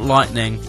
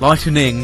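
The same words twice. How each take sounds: First: The middle E is dropped, giving two syllables. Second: The middle E is sounded, giving three syllables. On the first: The speaker calls it wrong. "not lightning" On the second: The speaker calls it right. "Got to emphasise the E"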